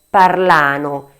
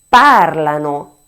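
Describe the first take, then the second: First: The stress is on a later syllable. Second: The stress is on the first syllable. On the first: The speaker calls it wrong. "e non parlano. Errore molto frequente" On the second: The speaker calls it right. "l'accento va proprio sulla prima A"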